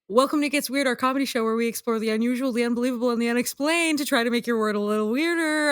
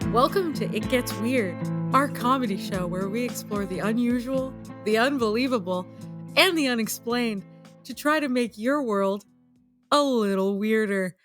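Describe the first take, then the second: First: It is said quickly with more energy. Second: It is said slowly with less energy.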